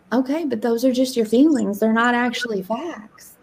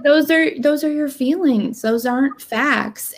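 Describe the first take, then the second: First: Gentle, matter-of-fact correction; nice-sounding coach. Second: Firmer retold correction; mildly stern reality check, slowing at the end; slightly harsher coach. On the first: Retold or imitated. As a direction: retell the coach's words nicely. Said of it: "Nicer. You sound so nice when you speak". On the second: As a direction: lay it down a little more harshly. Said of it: "it was probably a little harsher".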